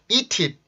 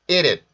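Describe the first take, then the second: First: The t is a clear t linked forward. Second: The t is a quick flap between vowels. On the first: The speaker calls it wrong. "eat it 이렇게 발음하지 않고" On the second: The speaker calls it right. "eat it 이렇게 발음을 하는 경우가 많죠"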